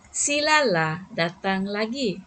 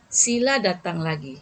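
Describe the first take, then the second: First: Gentle coaxing invitation. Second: Said in the usual way. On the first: Shown as a demonstration. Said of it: "orang pun rasa lembut hati". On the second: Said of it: "nada dia berbeza".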